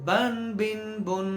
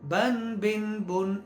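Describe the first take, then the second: Both takes have the same delivery.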